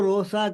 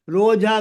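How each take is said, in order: First: The middle consonant is an s sound. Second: The middle consonant is a j sound.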